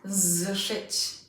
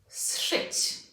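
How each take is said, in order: First: The word begins with a voiced z sound. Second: The word begins with an unvoiced s sound. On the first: The speaker calls it wrong. "Not zszyć" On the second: The speaker calls it right. "The same thing happens here as in zszedł"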